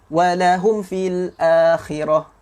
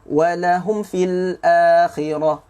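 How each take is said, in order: Both takes have the same delivery.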